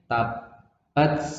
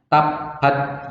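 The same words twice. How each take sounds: First: The final t has a slight hiss. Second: The final t has no hiss at all. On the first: The speaker calls it right. "Jadi ada S-nya, ada S-nya" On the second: The speaker calls it wrong. "Salah kalau baca nggak ada S-nya, nggak ada hamsnya"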